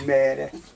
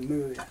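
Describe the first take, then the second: First: The first vowel is an unrounded e sound. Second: The first vowel is a rounded ő sound. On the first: It is the accepted standard form. The speaker calls it right. "Azóta mindig azt mondom, hogy merre" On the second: It marks a regional dialect form. The speaker calls it wrong. "milyen beszéd az, hogy mőre"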